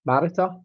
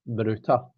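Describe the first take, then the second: First: "Marita" stressed on the first syllable; her own pronunciation. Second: "Maruta" stressed on the middle syllable; everyone else's pronunciation. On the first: Asking a viewer which name is right, first-syllable "Marita". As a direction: say "Marita" as MARR-it-a, stress up front. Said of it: "I've been calling you Marita". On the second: Offering a viewer the other option, middle-stressed "Maruta". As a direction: say "Maruta" as muh-ROO-ta, long oo. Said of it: "everyone else pronounces it Maruta". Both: Shown as a demonstration.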